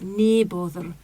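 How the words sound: It is said in a Scottish accent. "a Scottish accent. So ... she says near bother"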